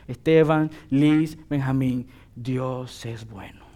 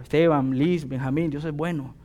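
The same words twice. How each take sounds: First: Heartfelt. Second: Said in the usual way. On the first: Shown as a demonstration. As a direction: say it slowly, as someone who has lived it. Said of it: "necesito experimentar la bondad de Dios". (sincero y pausado, mucho más suave) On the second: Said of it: "Puedo decírselo de boca".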